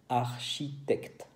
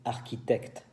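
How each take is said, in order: First: The 'ch' is said as a 'sh' sound. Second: The 'ch' is said as a 'k' sound. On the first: The speaker calls it right. "C H I se dice, se dice chi" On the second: The speaker calls it wrong. "hay muchos alumnos que dicen architecte"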